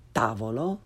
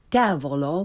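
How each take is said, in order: First: "tavolo" with open ah, rising; correct Italian pronunciation. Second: "tavolo" starting with English short a; learner's mispronunciation. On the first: Teacher corrects beginners, "tavolo" with Italian ah. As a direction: say "tavolo" as TAH-vo-lo. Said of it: "follow it with the correct pronunciation". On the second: Teacher shows beginners' mistake, "tavolo" with English short a. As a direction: say "tavolo" with tav as in tavern. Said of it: "first the way most people". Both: Shown as a demonstration.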